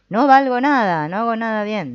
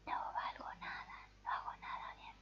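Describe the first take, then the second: First: It is said in a very loud voice. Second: It is said in a very quiet voice. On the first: "o muy alta" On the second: "en voz muy baja"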